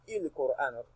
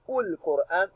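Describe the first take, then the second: First: The word begins with an i vowel. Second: The word begins with a u vowel. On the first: "You will never hear ... il-Qur'an" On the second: "You will never hear ul-Qur'an"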